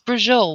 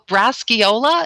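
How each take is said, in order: First: The word is clipped with the final vowel dropped. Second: The word is said in full, ending in a vowel. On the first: This is how a local relative said it. "she says Italian food with an Italian accent" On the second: This is the standard form. "Is that what she means?"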